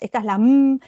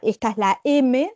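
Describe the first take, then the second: First: The M is said as its bare sound. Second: The M is said as its letter name. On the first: The speaker calls it right. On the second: The speaker calls it wrong. "en vez de decir"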